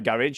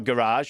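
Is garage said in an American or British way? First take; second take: British; American. First: Garage is said in a British way. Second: Garage is said in an American way.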